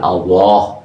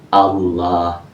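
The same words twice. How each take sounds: First: The vowels sound like O. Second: The vowels sound like A. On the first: The speaker calls it wrong. "bukan pakai O" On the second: The speaker calls it right. "pakai A"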